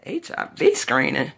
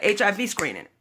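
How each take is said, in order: First: Slow, drawn-out questioning of "screening"; incredulous echo. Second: Said in the usual way. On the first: Retold or imitated. Patient's wife questions the doctor's test order, incredulous. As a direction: repeat "H I V screening" slowly as a disbelieving question. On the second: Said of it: "he was so quick".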